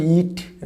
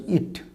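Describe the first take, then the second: First: "ইট" with a long ee, like eat; long vowel. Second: "ইট" with a short i, like it; short, softer "ইট"; short vowel. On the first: Teacher contrasting first word with second, long ee. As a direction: hold the vowel in "ইট". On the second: Teacher contrasting second word with first, short i. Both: Shown as a demonstration. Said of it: "খুব slight পার্থক্য".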